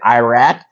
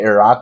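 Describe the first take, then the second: First: It is said with a Texan American pronunciation. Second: It is said with a native, non-American pronunciation. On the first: This is how Texans say it. "in Texas we say Iraq" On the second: This is the real pronunciation. "you should say Iraq"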